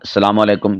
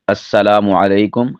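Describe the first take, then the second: First: The greeting starts directly with an 's' sound. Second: The greeting starts with 'as' and a doubled 's'. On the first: The speaker calls it wrong. "बोलने के अंदर भी बाज़ सलामु अलैकुम कह देते हैं" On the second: The speaker calls it right. "दुरुस्त क्या है?"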